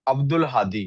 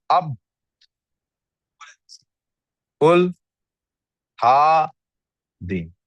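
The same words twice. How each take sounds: First: Said in the usual way. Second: "अब", "उल", "Hadi" split apart with long pauses; broken into syllables. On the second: Shown as a demonstration. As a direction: say अब, उल, Hadi in loud separate beats, splitting हा from दी. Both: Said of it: "कहाँ कहाँ break आता".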